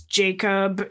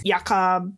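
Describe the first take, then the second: First: The name is pronounced the English way. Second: The name is pronounced the German way. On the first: "in our English telling" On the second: "in German"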